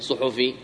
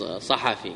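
First: صحفي said softly as "suhufi"; rejected plural-based pronunciation. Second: صحفي said softly as "sahafi"; the proper "sahafi" for صحفي, low-key; accepted singular-based pronunciation. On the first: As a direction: say صحفي with two short u vowels. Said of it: "ما نقول صحفي". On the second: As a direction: say صحفي with two short a vowels. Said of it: "نقول". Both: Shown as a demonstration.

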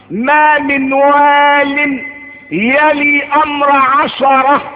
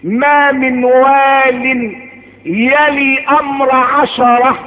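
Both takes have the same delivery.

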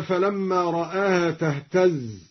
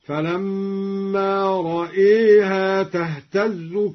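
First: Said in the usual way. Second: "رأيها" as ra-eeha, drawn out; imala on hamza. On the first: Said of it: "أمال الدوري الهمزة". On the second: Shown as a demonstration. Teacher demonstrating imala, "رأيها" chanted with long e. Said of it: "أمال الدوري الهمزة هكذا".

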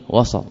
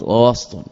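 First: وسط as "wasat", with an a after the s; وسط with a vowelled seen; open middle vowel. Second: وسط as "wast", no vowel after the s; ووسط with a vowelless seen; silent middle consonant. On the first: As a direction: say وسط in two syllables, wa-sat. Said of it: "يعني بفتح السين". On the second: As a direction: say ووسط with s running straight into t. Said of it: "ووسط بالسكون". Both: Shown as a demonstration.

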